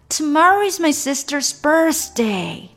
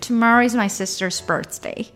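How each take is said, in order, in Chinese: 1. 这句话说得兴奋、带着感叹。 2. 这句话说得平静、就事论事。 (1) "你也可以比较惊叹的" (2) "你可以比较陈述的方式"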